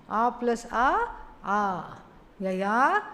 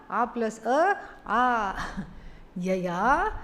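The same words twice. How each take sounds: The two takes are said the same way.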